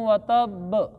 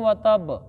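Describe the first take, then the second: First: The final 'b' is doubled and held. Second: The final 'b' is single, not doubled. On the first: The speaker calls it right. "बा के ऊपर शद पढ़ेंगे" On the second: The speaker calls it wrong. "ये तब गलत है"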